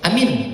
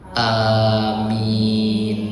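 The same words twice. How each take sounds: First: Both vowels are short. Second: Both vowels are long. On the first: It means make it safe. The speaker calls it wrong. "Kalau dibaca pendek dua-duanya" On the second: It means grant it. The speaker calls it right. "Alifnya panjang, ianya panjang"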